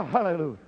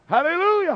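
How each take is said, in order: First: Said in the usual way. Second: High ringing hallelujah; shouted hallelujah. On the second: Real, not acted. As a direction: belt it out to the church. Shouted hallelujah, then repeated softer.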